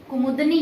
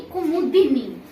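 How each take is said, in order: First: "कुमुदनी" as ku-mud-ni; missing vowel. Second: "कुमुदिनी" as ku-mu-di-ni; slow "कुमुदिनी" with a clear di; corrected vowel. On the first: Teacher shows the mistake, "कुमुदनी" as ku-mud-ni. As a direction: say "कुमुदनी" with no i after d. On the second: Teacher corrects students, "कुमुदिनी" with di spelled out. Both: Shown as a demonstration. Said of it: "कुमुदनी नहीं".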